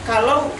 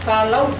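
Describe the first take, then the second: The two takes are said the same way.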